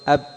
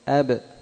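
First: The final consonant stops with no echoing bounce. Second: The final consonant ends with a short echoing bounce. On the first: The speaker calls it wrong. "لو قلت أب أق أد أد ما يتضح النطق بالحرف" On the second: The speaker calls it right. "فلذلك قلقلت عند الوقف"

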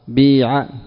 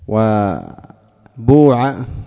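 First: The first vowel is a pure i sound. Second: The first vowel is a pure u sound. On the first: "كسر خالص" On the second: "ضم خالص"

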